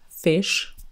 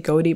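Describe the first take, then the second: First: The name is pronounced like the word fish. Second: The name is pronounced like goaty, two syllables. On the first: "Some people say fish" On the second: "Some people say Goaty"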